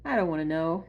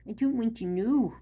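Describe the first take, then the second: First: Said in the usual way. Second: Higher, mock-horrified "I don't want to know."; mock squeamish. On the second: Shown as a demonstration. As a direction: pull back from the thought with a squeamish lift.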